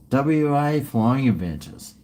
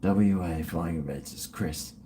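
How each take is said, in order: First: Said in the usual way. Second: Muttered under the breath to memorise it; softly drilling the name into memory; quiet rehearsal. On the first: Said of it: "I'll forget it, though". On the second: Shown as a demonstration. Repeating the sponsor name quietly to himself. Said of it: "I've gotta remember Chris".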